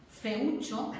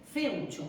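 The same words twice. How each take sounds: First: "feucho" as fe-Ú-cho, three syllables; stress on the U. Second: "feucho" as FÉU-cho, two syllables; stress on the E. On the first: Teacher gives the accented example, stress on U. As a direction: split the vowels of "feucho" and stress the U. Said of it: "la fuerza de voz es atraída por la vocal débil". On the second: Teacher shows how it would read unaccented, stress on E. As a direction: run E and U together in "feucho", E stressed. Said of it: "porque si no tendría que". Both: Shown as a demonstration.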